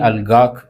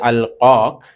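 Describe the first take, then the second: First: The verb begins with a g sound. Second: The verb begins with a kh sound. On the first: This is the spoken dialect form. "ഗ എന്ന സൗണ്ടാക്കി മാറ്റിയത്" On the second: This is the original form of the word. "ഖ എന്ന സൗണ്ടാണ്"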